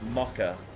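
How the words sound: It is said in an English accent. "English people say mocha, and I hate it"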